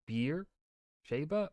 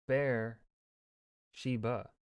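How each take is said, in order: First: "Beer Sheba" with "Beer" like the drink; saying Beer Sheba. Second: "Bear Sheba" with "Bear" like the animal; saying Bear Sheba. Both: Shown as a demonstration. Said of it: "What is the actual spelling?".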